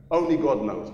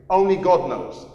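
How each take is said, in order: First: Said in the usual way. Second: ONLY said high and loud; stress on ONLY. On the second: Shown as a demonstration. Preacher stressing that only God knows, ONLY loud. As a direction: lift the word only up.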